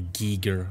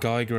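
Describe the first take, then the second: First: The first syllable sounds like 'gee'. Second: The first syllable sounds like 'guy'. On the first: The speaker calls it right. "Or Giger, I should say" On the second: The speaker calls it wrong. "you pronounce them wrong for so long"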